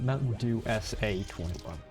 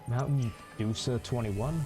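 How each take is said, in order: First: The 'SA' part is spoken as two letters. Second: The 'SA' part is blended into one word. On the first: "Or is it" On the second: "I'm pretty sure I pronounced that correctly"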